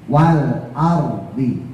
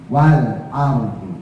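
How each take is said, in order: Both takes have the same delivery.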